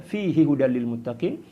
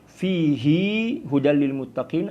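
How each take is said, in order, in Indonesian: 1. Vokal setelah h pada fihi tetap pendek. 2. Vokal setelah h pada fihi dipanjangkan. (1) "tidak memperpanjangnya" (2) "membacanya dengan memperpanjang huruf H"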